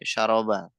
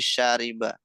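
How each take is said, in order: First: The middle vowel is an 'a' sound. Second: The middle vowel is an 'i' sound. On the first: The speaker calls it wrong. "jangan sampai syaroba" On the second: The speaker calls it right. "tapi syariba"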